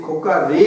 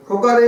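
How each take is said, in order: First: খোকা রে with রে stretched long and rising; drawn-out ending. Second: Mother calling from afar. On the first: Shown as a demonstration. Teacher repeats the mother's call to show the drawn-out রে. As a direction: hold the রে of খোকা রে like a far call. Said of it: "দেখো শেষের দিকে টানটা কেমন হচ্ছে". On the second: Retold or imitated. মা দূর থেকে ছেলেকে ডাকছে, রে-টা লম্বা টেনে জোরে. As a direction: call your son home across the yard, stretching রে. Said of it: "দূর থেকে কাউকে ডাকছি, মা তার ছেলেকে ডাকছে".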